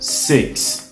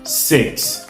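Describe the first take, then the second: No difference in how they are said.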